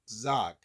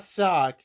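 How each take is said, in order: First: The name begins with a buzzing z sound. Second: The name begins with a hissing s sound. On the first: The speaker calls it right. "Yes, Zoc" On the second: The speaker calls it wrong. "not Sock"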